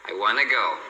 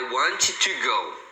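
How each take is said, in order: First: 'Want to' is reduced further to 'wanna'. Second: Both t sounds in 'want to' are said separately. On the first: "ela reduz ainda mais e você vai ouvir as pessoas falando" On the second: "Você não deve falar I want to go. Fica horrível"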